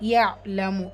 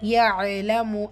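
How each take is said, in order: First: The ain sound is held without a vowel. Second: The ain sound is given an added vowel. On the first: The speaker calls it right. "இந்த இடத்துல எதையுமே அசைக்க தேவையில்லை" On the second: The speaker calls it wrong. "நம்ம நிறைய பேர் பண்ணுற தவறு"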